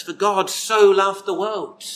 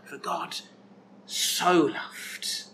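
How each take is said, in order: First: Said in the usual way. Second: Soft whispered echo of the verse. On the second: Shown as a demonstration. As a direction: breathe the words out as a hushed whisper. Preacher quotes verse, then whispers it.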